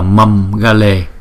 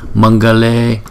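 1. Âm mũi trước g là âm m, đọc bằng môi. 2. Âm mũi trước g là âm ng, đọc ở cuống họng. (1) "chứ chúng ta không đọc là mâm gale ha" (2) "chữ M dấu nặng này chúng ta phải chuyển thành chữ ng"

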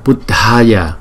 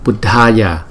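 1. Âm d bật hơi, có một luồng hơi bật ra. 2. Âm d bật hơi, có một luồng hơi bật ra.

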